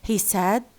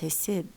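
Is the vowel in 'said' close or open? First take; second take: open; close. First: The vowel in 'said' is slightly more open. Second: The vowel in 'said' is close, like 'sid'. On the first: The speaker calls it right. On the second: The speaker calls it wrong.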